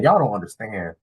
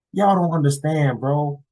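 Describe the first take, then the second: First: Said in the usual way. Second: "Y'all don't understand" pitched high and drawn out; emphatic exasperation. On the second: Real, not acted. Vlogger telling fellas about such stories, "Y'all don't understand" high and emphatic.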